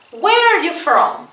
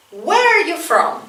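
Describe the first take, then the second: No difference in how they are said.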